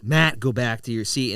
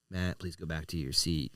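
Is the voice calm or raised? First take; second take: raised; calm. First: It is said in a loud, raised voice. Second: It is said in a calm, normal voice.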